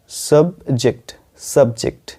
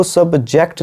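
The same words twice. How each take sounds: First: सब्जेक्ट ending in a short "jikt"; correct pronunciation. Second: सब्जेक्ट with an open "jackt"; wrong pronunciation. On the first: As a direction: say सब्जेक्ट as "sub-jikt", falling. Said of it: "जेक्ट नहीं, वो जेक्ट है". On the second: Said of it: "इसको सब्जेक्ट नहीं पढ़ते हैं". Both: Shown as a demonstration.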